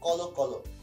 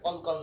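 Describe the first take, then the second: First: Each word ends with an o vowel sound. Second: Each word ends on the consonant with no vowel. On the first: The speaker calls it right. "তাহলে এটা কি হবে, কলো কলো" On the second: The speaker calls it wrong. "এটা কল কল না"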